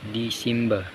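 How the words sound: It is said with an English-like Malaysian pronunciation. "Melayu Malaysia atau Sabah ... dia serupa dengan perkataan English lah"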